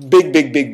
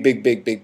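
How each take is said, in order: First: Big big big punched louder, each big hammered; the first big, big, big hit hard and loud; emphatic repetition. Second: Said in the usual way. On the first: Shown as a demonstration. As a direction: drive home big, big, big. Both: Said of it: "big difference".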